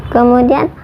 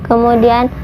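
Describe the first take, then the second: No difference in how they are said.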